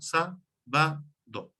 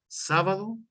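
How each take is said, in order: First: "sa, ba, do" as three separate beats; syllable by syllable. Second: Said in the usual way. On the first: Shown as a demonstration. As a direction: spell out the syllables "sa, ba, do" with gaps. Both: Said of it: "sílabas, que son".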